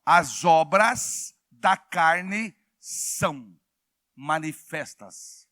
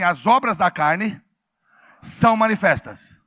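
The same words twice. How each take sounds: First: Very slow, spaced-out words; deliberate, measured quoting of scripture; scripture reading. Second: Loud chant for the congregation to repeat; loud call-out. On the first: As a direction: read the verse word by word, with long pauses. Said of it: "A Bíblia diz em Gálatas assim". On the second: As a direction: proclaim the verse in two firm phrases. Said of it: "Então vamos falar bem alto?". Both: Shown as a demonstration.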